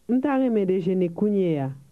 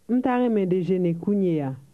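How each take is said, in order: Both takes have the same delivery.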